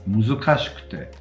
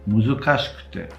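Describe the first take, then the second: The two takes are said the same way.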